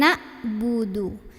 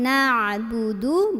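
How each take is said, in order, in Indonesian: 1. Konsonan di tengah itu hamzah biasa. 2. Konsonan di tengah itu bunyi tenggorokan yang dalam. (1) "bukan ain melainkan hamzah" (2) "di sini ain"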